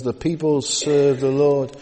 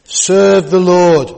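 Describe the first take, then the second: First: Said in the usual way. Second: Served the Lord slow and much louder, leaning hard on served; emphatic stress. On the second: Shown as a demonstration. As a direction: drive home served, slowly and loudly. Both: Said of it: "That's what it says".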